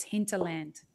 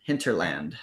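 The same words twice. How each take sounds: First: Hinterland with no R, Australian way; hinterland, non-rhotic Australian. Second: Hinterland with the R sounded, American way; Hinterland, R pronounced. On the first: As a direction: drop the R in hinterland. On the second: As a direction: say Hinterland with a clear R. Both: Shown as a demonstration. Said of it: "We don't say any of the R's in Australian".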